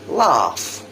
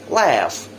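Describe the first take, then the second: First: British accent, with an open 'ah' vowel. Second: American accent, with a flatter 'eh'-like vowel. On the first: "the British version first" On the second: "the American later"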